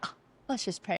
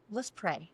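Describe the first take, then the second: First: Soft, mocking echo of a suggestion; cynical mimicry. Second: Imitating a calm, soft-spoken husband; quiet invitation. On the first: Wife parrots husband's call to pray, cynically. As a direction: grudgingly parrot it under the voice. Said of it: "So how cynical I was". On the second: Husband suggests praying to his riled wife, quietly. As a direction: softly suggest a prayer. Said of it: "And then he goes".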